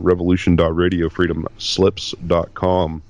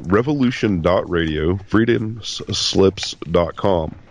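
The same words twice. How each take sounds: First: It is said fast. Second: It is said slowly.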